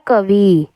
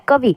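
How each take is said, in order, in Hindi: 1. अंतिम इ की मात्रा लंबी खिंची हुई है। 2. अंतिम इ की मात्रा छोटी है। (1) "इधर वाली बड़ी ई डाल देते हैं, तो वो क्या बन जाता है" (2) "छोटी ई की मात्रा आती है क्योंकि आवाज़ जो है थोड़ी आ रही है"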